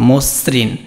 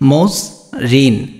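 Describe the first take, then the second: First: The word is said as one smooth unit. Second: The word is broken into two separate parts. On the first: The speaker calls it right. "এটা হবে কি মসৃণ" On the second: The speaker calls it wrong. "এটা কিন্তু এইভাবে না"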